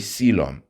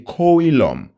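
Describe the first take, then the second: First: The O after the C is silent. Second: The O after the C is sounded. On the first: The speaker calls it right. "But when we pronounce it, we say coelom. the O is a silent one" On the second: The speaker calls it wrong. "when you spell it, is actually C O E L O M. So we say coelom"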